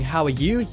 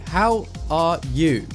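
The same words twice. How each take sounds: First: The words flow together at normal speed. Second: The words are slow with long pauses between. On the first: This is ordinary speech. "instead of saying" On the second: The brain struggles to connect words after long silence. "You'd also talk in a strange, slow way. ... these large pauses"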